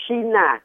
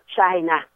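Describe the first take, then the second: First: China as shee-na, the French way; China with an sh like Shin; correct shin-a reading. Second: China with English ch, chai-na; China said chai-na, a hard ch; English reading. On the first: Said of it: "đúng lý phải đọc là China". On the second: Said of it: "thì họ đọc là China". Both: Shown as a demonstration.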